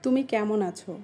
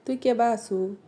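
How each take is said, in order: First: Standard Bengali pronunciation. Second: Regional Sirajganj Bengali accent; Sirajganj dialect. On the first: Asking someone how they are, standard Bengali. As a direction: ask it in formal standard Bengali. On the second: Asking someone how they are, Sirajganj dialect. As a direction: ask it like a Sirajganj local. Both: Shown as a demonstration. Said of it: "এটাকে আমরা বলি".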